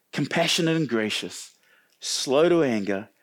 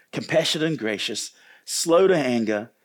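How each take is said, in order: The two takes are said the same way.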